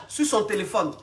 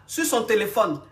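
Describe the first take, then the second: No difference in how they are said.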